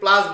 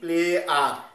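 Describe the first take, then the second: First: The word is said as one short syllable. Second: The word is said as two syllables, ple-ar. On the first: The speaker calls it wrong. "প্লাস উচ্চারণটাই ভুল" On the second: The speaker calls it right. "এটার উচ্চারণ হবে কি, প্লে আর"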